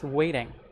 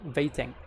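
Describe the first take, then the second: First: The word begins with a rounded W sound. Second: The word begins with a V sound. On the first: The speaker calls it right. "it's w" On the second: The speaker calls it wrong. "It's not waiting"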